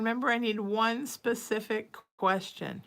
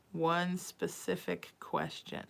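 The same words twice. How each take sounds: First: Said in the usual way. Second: "One" leaned on, said softer and slow; quiet, slow, deliberate repeat; slow emphatic repeat. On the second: Real, not acted. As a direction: spell it out slowly, stressing "One".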